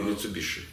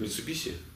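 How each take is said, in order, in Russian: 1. Последний слог произносится со звуком 'sh'. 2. Последний слог произносится с простым 's'. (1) "Или Митсубиши?" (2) "У вас, говорят, Митсубиси?"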